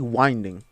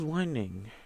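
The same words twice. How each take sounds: First: The first syllable does not sound like wind. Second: The first syllable sounds like wind, moving air. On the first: The speaker calls it right. "It's actually winding" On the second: The speaker calls it wrong. "because it's like it has wind in it"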